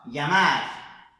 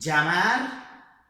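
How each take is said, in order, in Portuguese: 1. Começa com um som suave, parecido com ly. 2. Começa com um som de dj. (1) "esse é o som então feito na Espanha ... é um L H meio que pela metade" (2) "É como se fosse um D com um J misturado"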